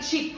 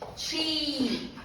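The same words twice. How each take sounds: First: The vowel is a short sound. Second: The vowel is a long ee sound. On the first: The speaker calls it wrong. "Do not say cheap" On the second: The speaker calls it right. "the sound will be E daros"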